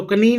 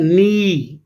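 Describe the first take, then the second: First: "कनी" beginning with an audible K; wrong sounded K. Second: "नी" starting straight on the N; correct silent K. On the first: Teacher warning pupils, "कनी" mispronounced with the K sounded. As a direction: say "कनी" as "k-nee", K before the N. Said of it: "कनी नहीं पढ़ना आपने". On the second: Teacher giving pupils the answer, "नी" pronounced with K silent. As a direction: say "नी" as a long "nee", no K. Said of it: "क्या पढ़ना है?". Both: Shown as a demonstration.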